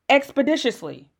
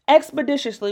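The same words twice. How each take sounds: First: The word is said in an ordinary voice. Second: The word is said in a put-on voice.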